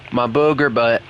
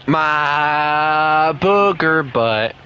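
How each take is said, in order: First: Said in the usual way. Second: Slow, drawn-out doting coo. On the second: Real, not acted. Talking to his dog Booger, slow doting baby talk. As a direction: stretch "booger" out lovingly for the dog.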